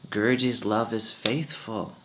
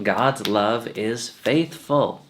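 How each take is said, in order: First: Said in the usual way. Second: "God's love is faithful" drawn out slowly, falling on "faithful"; "faithful" stretched with a falling close; slow emphatic quote. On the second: Shown as a demonstration. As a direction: lean on each word, slowly. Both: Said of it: "That's what it says".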